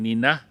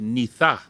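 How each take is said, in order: First: It is said with an n sound, Swampy Cree. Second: It is said with a th sound, Woodland Cree.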